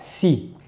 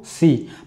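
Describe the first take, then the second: First: The s sound is plain, without emphasis. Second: The s sound is emphatic and heavy. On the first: The speaker calls it right. "lorsqu'elle a une kasra" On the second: The speaker calls it wrong. "ne pas créer d'emphase... Pas faire de"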